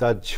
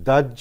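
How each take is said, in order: First: The middle is j followed by aspirated jh. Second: The middle is a plain double j sound. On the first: The speaker calls it right. "দাহ্য হবে" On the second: The speaker calls it wrong. "দাহ্য হবে না"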